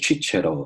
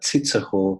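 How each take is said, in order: First: The name is said with Italian pronunciation. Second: The name is said with German pronunciation. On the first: "in Italy, it's like a" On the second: "in German it's like"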